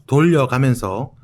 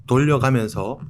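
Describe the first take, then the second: The two takes are said the same way.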